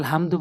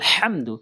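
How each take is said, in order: First: The h is a plain light h sound. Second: The h is a deep throat h sound. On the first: The speaker calls it wrong. "এখানে আলহামদু বলি" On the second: The speaker calls it right. "বলতে হবে আলহামদু"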